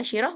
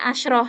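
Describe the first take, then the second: First: The sh sound is followed by an i vowel. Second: The sh sound has no vowel after it. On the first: "boleh kita baca dalam bentuk kasroh" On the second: "shinnya kita sukunkan"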